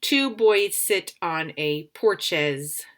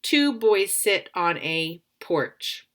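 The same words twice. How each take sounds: First: Slow read-aloud testing the wrong word; slow trial reading. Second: Slow, careful read-aloud of the sentence; slow trial reading. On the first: Teacher slowly tests the wrong word aloud. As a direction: try porches in the blank, slowly. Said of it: "try it again with the other word". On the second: Teacher slowly reads the sentence to test the word. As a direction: test how Two boys sit on a porch sounds, slowly. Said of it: "I'm gonna use the first word". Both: Shown as a demonstration.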